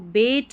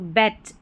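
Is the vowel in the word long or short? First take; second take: long; short. First: The vowel is a long 'ay' sound. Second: The vowel is a short open 'a' sound. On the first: The speaker calls it wrong. "इसको बेट नहीं पढ़ रहे हैं" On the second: The speaker calls it right. "ए बीच में है और दोनों तरफ कॉन्सोनेंट के बीच में है"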